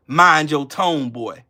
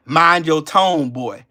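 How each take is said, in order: First: Slow, condescending repeat of Mind your tone. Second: Slow, condescending mind your tone. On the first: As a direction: drag it out like a scolding master. Repeats the mock scold. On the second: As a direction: talk down like a scolding master. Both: Retold or imitated.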